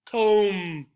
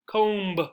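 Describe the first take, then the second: First: The word ends with an m sound. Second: The word ends with an audible b sound. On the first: The speaker calls it right. "The last sound coming out of your mouth should be mm" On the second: The speaker calls it wrong. "So we don't say comb"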